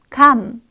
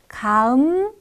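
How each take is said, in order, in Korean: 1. 짧은 음절 하나로 빠르게 한 번에 발음합니다. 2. 천천히 늘려서 두 부분으로 나눠 발음합니다. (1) "점점 짧게 합성하여 한 번에 감으로 소리냅니다" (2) "천천히 늘려서 합성하다가"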